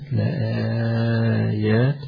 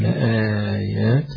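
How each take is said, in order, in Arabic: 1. يُمَدّ المدّ أربع حركات. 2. يُمَدّ المدّ حركتين. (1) "واربعة" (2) "له البدل لآيات ... حركتين"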